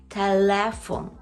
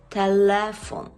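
Both takes have the same delivery.

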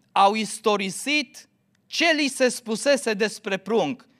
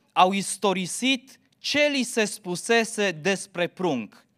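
Both takes have the same delivery.

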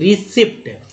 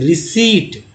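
First: The p sound is pronounced. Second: The p sound is silent. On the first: The speaker calls it wrong. "अब रिसिप्ट लोग पढ़ते हैं" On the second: The speaker calls it right. "इसे रिसीट पढ़ें"

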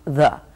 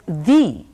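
First: The word has a short, reduced vowel. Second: The word has a long, full vowel. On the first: This form is used before consonants. "It's written T-H-E and it's pronounced the. And this is before consonants" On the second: This form is used before vowels. "they are pronounced as the before vowels"

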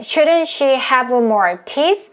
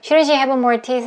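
First: It is said slowly and carefully. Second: It is said fast and relaxed.

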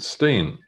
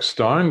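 First: The vowel sounds like 'ee', as in seen. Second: The vowel sounds like 'eye', as in mine. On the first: This is how the family says the name. The speaker calls it right. "but they pronounce it Stein" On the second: This is how the name looks when read. The speaker calls it wrong. "It looks like Stein"

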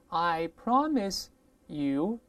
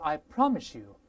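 First: The s stays a plain s sound. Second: The s changes into an sh sound.

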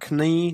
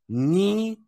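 First: The word starts with a k sound. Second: The word starts with an n sound. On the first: The speaker calls it wrong. "never knee" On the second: The speaker calls it right. "It's always pronounced just as n. The K is silent"

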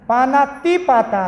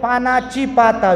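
First: The middle syllable is said as 'ti'. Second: The middle syllable is said as 'chi'. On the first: The speaker calls it right. "पाना ती पाता आहे" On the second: The speaker calls it wrong. "काही काही ठिकाणी डायरेक्ट म्हणते पानाची पाता"

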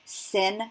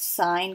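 First: It rhymes with "pin", with a short vowel. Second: It rhymes with "line", with a long vowel. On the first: The speaker calls it wrong. "Do not pronounce them sin" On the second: The speaker calls it right. "It is still pronounced sine"

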